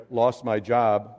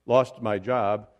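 First: Said in the usual way. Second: "lost" set apart slowly, as if quoted; quote marks on LOST. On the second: Shown as a demonstration. Preacher tells congregation he "lost" his job, "lost" in slow verbal quote marks. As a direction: drag out "lost" as a so-called loss. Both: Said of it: "lost in quote marks".

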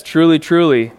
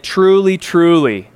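First: "Truly, truly" firm and falling; emphatic. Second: Both "Truly" pressed firmly, falling at the end; emphatic. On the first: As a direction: stress both "truly" calmly. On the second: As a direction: lean hard on "Truly, truly". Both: Shown as a demonstration. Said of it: "sort of emphatically stating".

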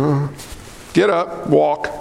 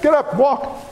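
First: Unsure, trailing lower mumble, not meaning it; hesitant hypocrite. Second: Firm, sure command. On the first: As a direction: hesitate like a hypocrite who doubts. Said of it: "The hypocrite's like". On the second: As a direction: say it with full authority. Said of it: "He didn't say it like that". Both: Retold or imitated.

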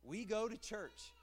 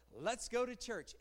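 First: Said in the usual way. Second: Let's go to church as an invitation with some lift on go; eager invitation. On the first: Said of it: "is there the same anticipation in this statement". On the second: Shown as a demonstration. Preacher contrasting an eager invitation with the dull phrase. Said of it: "is there the same anticipation".

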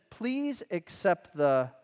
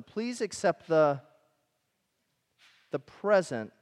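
First: Slow reading. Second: Long pause, then "the present" set apart; pause before present. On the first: Preacher reading the verse to the congregation, slow. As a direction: slowly read verse, trailing off before the key word. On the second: Preacher pointing the congregation to one word, pause before "present". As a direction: hold a beat, then land on "present". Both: Shown as a demonstration. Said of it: "do you see the next word there?".

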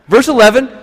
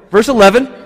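Both takes have the same delivery.

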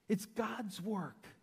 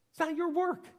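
First: "God's work" drawn out softer; slow affirmation. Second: "not your work" thrown out high and loud; emphatic denial. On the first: Preacher reminds whose work it is, slow and measured. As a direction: stretch "God's work" slowly after the outburst. Answer to the contrast. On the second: Preacher corrects the servant, with high, emphatic denial. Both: Shown as a demonstration.

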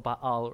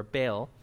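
First: Baal said as ba-AHL; two-syllable Baal. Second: Baal said as one syllable, like bale; anglicized Baal. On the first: Teacher giving the name of the foreign gods, Baal as ba-AHL. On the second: Teacher giving the common mispronunciation, Baal as bale. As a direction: say Baal to rhyme with pale. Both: Shown as a demonstration. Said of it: "mess up the way this pronounced".

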